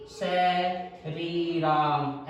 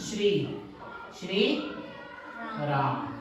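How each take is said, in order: First: "स, री, राम," with the first cluster broken apart, pauses between; split syllables. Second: "श्री श्री राम।" with shr as one joined sound; joined cluster. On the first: Teacher showing how children spell it, split syllables. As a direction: say "स, री, राम," as separate sa, ree, raam. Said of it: "ऐसे बच्चे कई बार लिख देते हैं". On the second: Teacher showing the correct written form, joined cluster. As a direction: say "श्री" as one syllable, shree, then "राम". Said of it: "जबकि लिखा कैसे जाएगा". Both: Shown as a demonstration.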